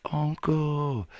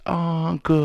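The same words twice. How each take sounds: First: High breathy whisper calling uncle; faint call from far down the alley; distant whispered call. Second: Uncle drawn out long and high like in the movies; movie-style drawn-out call of Uncle; stretched call. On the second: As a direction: stretch out Uncle, higher and louder. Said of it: "kinda stretch it out like that". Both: Acted.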